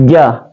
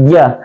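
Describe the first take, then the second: Both takes have the same delivery.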